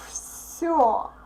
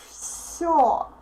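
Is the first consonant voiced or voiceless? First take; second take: voiceless; voiceless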